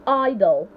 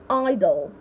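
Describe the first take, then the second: The two takes are said the same way.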